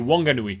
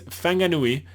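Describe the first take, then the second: First: The name begins with a W sound. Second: The name begins with an F sound. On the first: This is the English pronunciation. "it's just Wong" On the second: This is the Maori pronunciation. "you usually say F"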